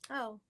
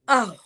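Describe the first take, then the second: First: It sounds disappointed. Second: It sounds angry.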